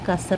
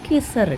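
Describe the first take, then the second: First: The first vowel is an 'a' sound. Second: The first vowel is an 'i' sound. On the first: The speaker calls it right. "കസർ എന്നാണ് പറയുന്നത്" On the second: The speaker calls it wrong. "കിസറല്ല"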